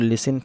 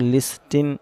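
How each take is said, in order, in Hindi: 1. बीच में t ध्वनि silent होती है। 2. बीच में t ध्वनि उच्चारित होती है। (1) "टी साइलेंट तो लिसन पढ़ा जाएगा" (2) "इसको लिस्टिन नहीं पढ़ा जाएगा"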